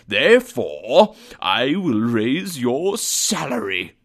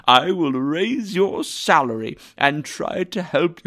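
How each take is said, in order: First: Slow, drawn-out grand pronouncement with swooping pitch; slow, teasing mock severity; mock-stern announcement. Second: Higher, lively and emphatic; animated, generous outburst; delighted promise. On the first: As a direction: build loudly on the first word, then spin out the reveal. Mock-stern build to surprise reveal. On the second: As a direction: promise help with open, hearty eagerness. Scrooge drops pretence, promises help. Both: A narrator's reading.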